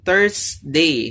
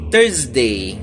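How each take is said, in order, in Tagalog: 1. Ang gitnang katinig ay tunog s na sumisitsit. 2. Ang gitnang katinig ay tunog z na may huni. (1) "ang common sa atin, Thursday. So, S yung sound" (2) "ang tama pala ay papalitan natin yung S ng Z"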